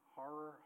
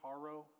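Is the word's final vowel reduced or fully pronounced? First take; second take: reduced; fully pronounced. First: The final vowel is clipped, Southern style. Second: The final vowel is fully pronounced, Eastern style.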